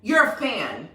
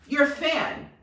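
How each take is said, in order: Both takes have the same delivery.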